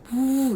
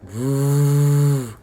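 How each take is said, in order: First: The voice is pitched high. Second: The voice is pitched low. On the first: The speaker calls it wrong. "너무 고음으로 잡지 마세요. 부 이렇게 잡지 마시고요" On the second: The speaker calls it right. "중저음으로 깔아서 낸다"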